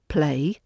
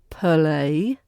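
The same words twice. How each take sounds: First: No uh sound is added in the middle. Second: An uh sound is added in the middle. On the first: "rather than play" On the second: "Play is heard as play"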